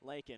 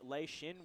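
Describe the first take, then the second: First: The name sounds like Lakin. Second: The name sounds like Lee Shin. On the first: The speaker calls it wrong. "not Lakin" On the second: The speaker calls it right. "I believe number twenty-four for Cairns is Lei Shin Williams"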